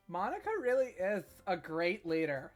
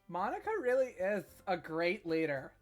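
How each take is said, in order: First: It is said in a put-on ditzy voice. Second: It is said in a put-on ditzy voice.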